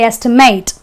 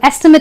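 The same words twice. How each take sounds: First: The last syllable sounds like 'ate'. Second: The last syllable sounds like 'it'. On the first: It is used as a verb. "Because it's a verb, so I say estimate" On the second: It is used as a noun. "the pronunciation of the ate is not ate but an it"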